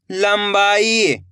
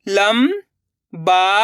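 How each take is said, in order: First: Said in the usual way. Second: लंबाई drawn out slowly; syllable by syllable. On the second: Shown as a demonstration. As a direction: sound out लंबाई. (लंबाई को अक्षर-अक्षर बोलना) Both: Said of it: "अब आगे देखिए".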